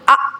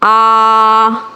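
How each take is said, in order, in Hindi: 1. स्वर झटके के साथ निकाला गया है। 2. स्वर लंबा खिंचा हुआ है। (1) "झटका देना ... ये भी नहीं करना" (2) "खींचना किससे कहते हैं? ... ये नहीं करना"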